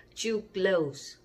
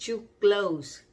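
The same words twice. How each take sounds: Both takes have the same delivery.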